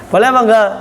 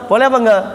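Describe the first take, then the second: No difference in how they are said.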